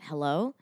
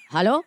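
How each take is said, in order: First: Low, soft questioning hello; small, wary phone hello; retold tentative hello. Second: Louder, rising phone hello; sudden questioning hello, louder; imitated father's hello. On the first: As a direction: answer quietly, rising at the end. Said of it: "and I went". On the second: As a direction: mimic him calling hello back. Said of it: "and he went".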